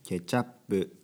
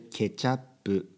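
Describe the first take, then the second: First: It ends on p without a full vowel. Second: It ends with a full vowel after p. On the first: The speaker calls it wrong. "ケチャップじゃなくて" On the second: The speaker calls it right. "このプ、この最後の母音をしっかり入れるようにしてください"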